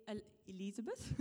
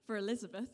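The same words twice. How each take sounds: First: "Elizabeth" tripped into a quirky, odd accent; funny accent. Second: Said in the usual way. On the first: Real, not acted. Preacher reading the passage slips into a funny accent on Elizabeth. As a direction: stumble on "El-, Elizabeth" with a strange accent slip. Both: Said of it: "That was a funny accent".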